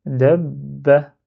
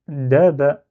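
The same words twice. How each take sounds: First: DAB BA with the b held, then released into ba; doubled b. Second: DA BA as two open syllables with a single short b; without shadda. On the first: Teacher showing the word with shadda, lengthened b. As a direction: linger on the b in "dab ba". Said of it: "je m'attarde sur le son b avant de faire ba". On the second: Teacher decomposing the word without its shadda, split syllables. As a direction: say "da ba" slowly, syllable by syllable, b not doubled. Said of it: "si j'enlève shadda, là, ça donne". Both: Shown as a demonstration.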